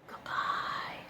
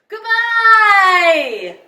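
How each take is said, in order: First: It is said very softly. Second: It is said very loudly.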